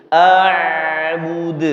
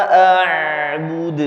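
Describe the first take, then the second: The two takes are said the same way.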